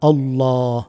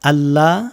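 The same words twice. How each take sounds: First: Allah is said with a full, heavy sound. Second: Allah is said with a thin, light sound. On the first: The speaker calls it right. "মুখ ভর্তি করে উচ্চারণ এভাবে করবেন" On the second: The speaker calls it wrong. "আল্লাহ বলবেন না"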